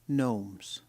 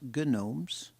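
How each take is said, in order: First: The g sound is not pronounced. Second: The g sound is pronounced. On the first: The speaker calls it right. "Silent G" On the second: The speaker calls it wrong.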